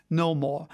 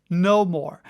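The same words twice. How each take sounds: First: Said in the usual way. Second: Louder, falling No more; firm final declaration; emphatic repeat. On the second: A narrator's reading. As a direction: slam the door on the argument.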